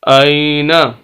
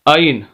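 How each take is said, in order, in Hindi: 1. शब्द n के बाद स्वर पर खत्म होता है। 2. शब्द व्यंजन n पर खत्म होता है। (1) "आई नून जबर ना" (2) "वक्फ के अंदर हम पढ़ेंगे आइन"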